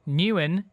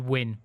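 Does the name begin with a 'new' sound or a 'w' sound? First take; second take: new; w. First: The name begins with a 'new' sound. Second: The name begins with a 'w' sound. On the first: The speaker calls it wrong. "my um, pronunciations for the word" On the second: The speaker calls it right. "what should be"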